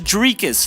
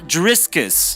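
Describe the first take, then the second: First: The name has no s before the k. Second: The name has an s before the k. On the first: The speaker calls it right. "his name is Dricus" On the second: The speaker calls it wrong. "not Driscus"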